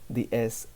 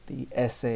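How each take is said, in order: Both takes have the same delivery.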